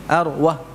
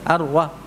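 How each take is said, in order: No difference in how they are said.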